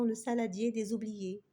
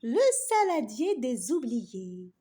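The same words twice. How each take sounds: First: Said in the usual way. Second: "Le saladier des oubliés" annoncé en titre, plus fort, lent; détacher "Le saladier des oubliés" comme un titre. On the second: Acted. (« Le saladier des oubliés » annoncé solennellement comme un titre) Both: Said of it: "titre annoncé de l'histoire".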